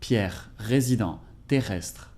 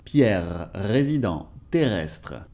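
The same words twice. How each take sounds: First: The R is a rough, breathy H-like sound. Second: The R is a rattling, gargled throat sound. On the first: "pronounce it like a rough H" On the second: "like a running engine"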